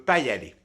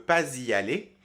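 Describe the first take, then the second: First: No z sound links pas to y. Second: A z sound links pas to y. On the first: This is informal speech. "en version orale informelle" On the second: This is standard speech. "en langue standard, normalement"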